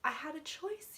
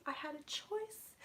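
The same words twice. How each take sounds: First: Said in the usual way. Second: Slow breathy whisper of regret. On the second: Real, not acted. Psychic whispers the spirit's confession. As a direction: breathe it out slowly.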